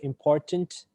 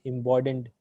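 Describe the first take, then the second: First: The middle consonant is a clear t sound. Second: The middle consonant is a d sound. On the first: The speaker calls it right. "instead of important" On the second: The speaker calls it wrong. "instead of t, they're putting the d sound"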